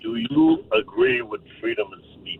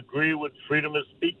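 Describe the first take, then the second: First: The question is said slowly. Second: The question is said at normal speed.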